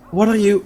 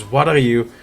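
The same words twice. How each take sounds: First: High, rising alarm; panicked. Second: Said in the usual way. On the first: Acted. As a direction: ask it again in sudden fear. NPC asks, then panics.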